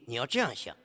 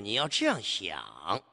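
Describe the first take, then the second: First: The final syllable ends without a clear falling pitch. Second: The final syllable ends with a clear falling pitch. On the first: The speaker calls it wrong. "你不能读成这个问题你要这样想，这就不对了" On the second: The speaker calls it right. "要有一个明显的降声"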